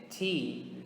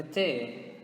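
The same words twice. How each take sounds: First: T said as "tee"; English letter T. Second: T said as "teh"; Portuguese letter T. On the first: Teacher answering with the English letter, T as "tee". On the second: Teacher naming the letter in Portuguese first, T as "teh". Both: Shown as a demonstration. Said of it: "in English is going to be".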